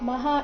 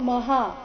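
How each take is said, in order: First: The first vowel is kept short. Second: The first vowel is drawn out long. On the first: The speaker calls it right. "ಮಗೆ ಅಕಾರ ಇದೆ" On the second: The speaker calls it wrong. "ಮಹಾ ಇಲ್ಲ"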